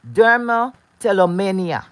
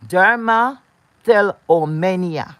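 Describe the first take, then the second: First: Said in the usual way. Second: Dermatillomania said slowly, syllable by syllable; slow, careful. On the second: Shown as a demonstration. Introducing the viewers to a medical term, said slowly. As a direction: spell out Dermatillomania slowly and clearly.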